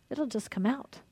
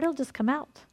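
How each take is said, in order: First: Soft echo. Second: Said in the usual way. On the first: Real, not acted. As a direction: drop to a near hush on the repeat. Repeats it much softer.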